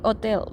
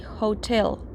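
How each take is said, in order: First: The word begins with no H sound. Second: The word begins with an audible H sound. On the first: The speaker calls it wrong. "We don't say hotel" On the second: The speaker calls it right. "It's a pronounced H"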